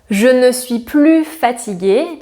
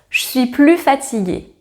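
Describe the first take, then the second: First: The word 'ne' is clearly pronounced. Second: The word 'ne' is dropped entirely.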